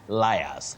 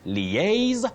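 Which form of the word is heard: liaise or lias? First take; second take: lias; liaise. First: The word is said as lias. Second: The word is said as liaise. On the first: The speaker calls it wrong. "not liars" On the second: The speaker calls it right. "So you say liaise"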